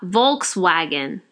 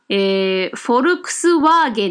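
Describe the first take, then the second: First: It is said with an American English pronunciation. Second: It is said with a Japanese katakana pronunciation. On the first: "アメリカ英語だったらフォークスワーゲンになるわけですね" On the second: "日本語でどうなのかなって見てみたら実際に混じってた、フォルクスワーゲンになってるんですよね"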